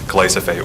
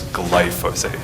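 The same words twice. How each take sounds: First: The s and y sounds are swapped around. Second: The s and y sounds are in usual order. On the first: The speaker calls it wrong. "the superintendent said glyphosate" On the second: The speaker calls it right. "when it's glyphosate"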